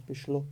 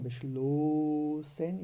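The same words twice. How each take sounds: First: "beschlo" with a quick, short O; simply "beschlo", no lengthening of the final vowel. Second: "beschlossen" with the O wrongly drawn out; exaggerated long O held in "beschlossen"; overlong O. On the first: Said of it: "o O é uma vogal curta". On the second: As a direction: stretch the O in "beschlossen" into a long ooh. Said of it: "e sim, é simplesmente beschlo". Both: Shown as a demonstration.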